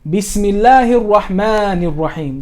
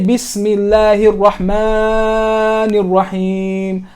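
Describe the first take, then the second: First: The long vowel is held for only two counts. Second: The long vowel is stretched well beyond two counts. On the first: The speaker calls it right. "Just two" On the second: The speaker calls it wrong. "you don't say"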